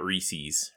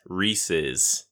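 First: Reese's ending in a long -eez, lower and softer; pronounced REE-seez. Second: Reese's ending in short -iz, lower; pronounced REESE-iz. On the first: Showing the wrong version, Reese's with -eez. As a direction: say Reese's to rhyme with fleecies. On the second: Confirming the video's answer, Reese's with short -iz. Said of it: "It is Reese's". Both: Shown as a demonstration.

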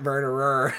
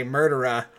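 First: "murderer" with every R sounded, American style; American pronunciation. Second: "murderer" with British dropped R's; British pronunciation. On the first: Showing the word the actor couldn't say, American rhotic "murderer". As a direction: say "murderer" with hard American R's throughout. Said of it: "not murderer". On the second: Showing how the actor turned "murderer" British, non-rhotic. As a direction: say "murderer" ending in an open "uh", British style. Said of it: "turn it, like, British and say murderer". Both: Shown as a demonstration.

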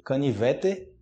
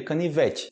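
First: "Canivete" ending in a clear "teh"; spelled-out pronunciation. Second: "canivete" ending in "chee"; everyday pronunciation. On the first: Teacher reading the written form, "Canivete" with final "eh". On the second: Teacher giving the spoken form, "canivete" ending in "chi". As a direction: turn the final "te" of "canivete" into "chi". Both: Shown as a demonstration. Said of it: "seria canivete".

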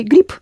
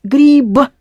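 First: Grip ending in a crisp voiceless p; devoiced final p. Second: Grib as written, with a b at the end; spelled with b. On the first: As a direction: say grip with a hard p at the end, not b. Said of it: "So you say grip". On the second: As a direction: read grib by its spelling, ending in b. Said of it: "you've got the B letter at the end". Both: Shown as a demonstration.

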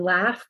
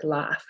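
First: Said in the usual way. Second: "laugh" as "lahf", vowel low and back; lowered back vowel. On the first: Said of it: "will sound more like". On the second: Shown as a demonstration. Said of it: "lower and back in the mouth".

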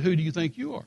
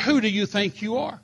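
First: Said in the usual way. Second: Higher, a bit louder indignant challenge; lightly voiced angry lady official. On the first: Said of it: "I said". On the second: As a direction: demand it like an offended official. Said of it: "She said".

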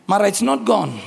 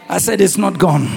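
First: Said in the usual way. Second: Louder insistence on "not gone"; firm repeat, stress on not. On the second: Real, not acted. Preacher insists to Mara, firmly stressing not. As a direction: push "not" hard so they believe it.

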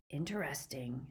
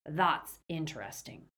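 First: Hushed, suspicious "Interesting"; ominous musing. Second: "That's" leaned on, then falling away; weight "That's" in ominous musing; stress on THAT'S. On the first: Greyback grows suspicious. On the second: Greyback repeats with emphasis. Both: A narrator's reading.

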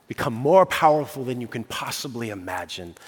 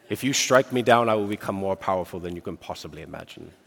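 First: Said in the usual way. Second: A badly faked English accent, lower and fast as Obi-Wan; hammed-up English accent, playing Obi-Wan Kenobi in a duel. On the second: Preacher quoting Obi-Wan to the congregation in a terrible English accent. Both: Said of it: "That's a terrible, terrible, uh, English accent".

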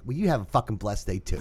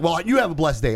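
First: Low, cold sarcastic comeback; sarcastic, quieter. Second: Said in the usual way. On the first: Retold or imitated. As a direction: throw it back softly and sarcastic. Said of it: "And I said it just like that". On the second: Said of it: "he's like".

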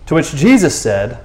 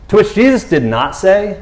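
First: Said in the usual way. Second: "not" punched in a higher-pitched correction; lifted, emphatic "did not say"; stress on NOT. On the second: Shown as a demonstration. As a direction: lean hard on "not" for comic contrast. Corrects himself with comic emphasis.

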